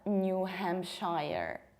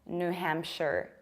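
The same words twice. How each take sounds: First: The last syllable is a full "shire". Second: The last syllable is reduced, like "share". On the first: The speaker calls it wrong. "It's not New Hampshire" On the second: The speaker calls it right. "you have to reduce it and pronounce it like share"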